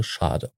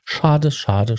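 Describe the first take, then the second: First: Breathy whispered schade. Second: Said in the usual way. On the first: Acted. Regretful repetition, fading.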